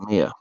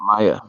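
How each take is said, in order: First: The name is said as 'Mia'. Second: The name is said as 'Maya'. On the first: The speaker calls it right. "it's Mia" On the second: The speaker calls it wrong. "Not Maya"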